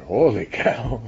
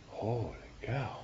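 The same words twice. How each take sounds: First: Loud, high Holy cow in an imitated German accent. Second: Put-on slow, high Holy cow with a light German accent. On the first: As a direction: ham up Hans Bethe's amazed German accent. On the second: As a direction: imitate Hans Bethe's amazed German accent, drawn out. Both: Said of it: "in his German accent".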